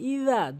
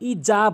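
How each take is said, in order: First: The middle consonant is a soft 'th' sound. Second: The middle consonant is a 'j' sound. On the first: The speaker calls it right. "জিব্বার আগা দাঁতের আগা নর্মালি হালকা করে ইজা বলতে হবে" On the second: The speaker calls it wrong. "ভুল উচ্চারণ"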